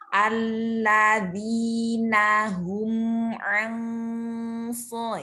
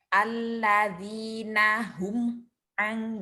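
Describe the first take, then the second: First: The m in hum is fully sounded and held. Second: The m in hum is rushed and clipped short. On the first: The speaker calls it right. "Sebenarnya bukan tahanan, tetapi menuntaskan mim sukunnya" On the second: The speaker calls it wrong. "bukan berarti cepat-cepat gitu ya. Misalnya alladzina hum ang gitu ya. Tidak seperti itu ya"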